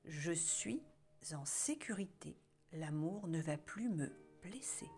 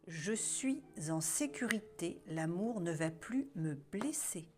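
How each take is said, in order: First: It is said louder than the first. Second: It is said at the loudest level.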